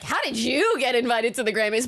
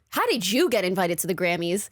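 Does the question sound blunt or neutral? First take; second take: blunt; neutral. First: The question sounds blunt and intense. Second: The question sounds neutral and casual. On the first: The question seems to doubt the person deserved it. "it kind of sounded like" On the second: The words are just a question. "he basically goes"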